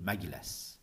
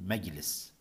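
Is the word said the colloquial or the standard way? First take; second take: colloquial; standard. First: The word has its colloquial dialect pronunciation. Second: The word has its Standard Arabic pronunciation. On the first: "أما في اللغة العامية يقولون مجلس" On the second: "في اللغة العربية الفصحى يقولون مجلس"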